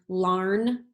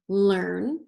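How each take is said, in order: First: The vowel sounds like the 'ar' in 'car'. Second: The vowel sounds like the 'er' in 'her'. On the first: The speaker calls it wrong. "Let's try it with R. ... that doesn't sound right" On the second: The speaker calls it right. "let's try it with er ... so that sounds right"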